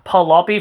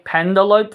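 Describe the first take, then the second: First: The final E of the name is sounded. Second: The final E of the name is silent. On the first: The speaker calls it wrong. "They keep they keep pronouncing it as" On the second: The speaker calls it right. "E is supposed to be silent"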